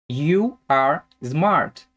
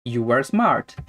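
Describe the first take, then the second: First: Slow, separated YOU, ARE, SMART; slow word-by-word. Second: Said in the usual way. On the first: Shown as a demonstration. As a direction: draw out each word for learners. Teacher models example slowly, then connected.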